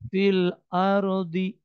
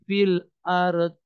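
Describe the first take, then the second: First: The final d is followed by an i vowel. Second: The final d is followed by an e vowel. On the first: "bukan fil ardi" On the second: "tidak pula dibaca e"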